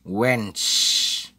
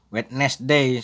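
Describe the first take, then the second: First: The first d and middle e are dropped. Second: Every letter is sounded, including the first d. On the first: The speaker calls it right. "D yang pertama itu dihilangkan" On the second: The speaker calls it wrong. "jangan sampai kalian baca Wednesday. Nah, tidak benar itu"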